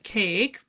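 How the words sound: It ends on the k sound, American style. "in America, right, we're like cake"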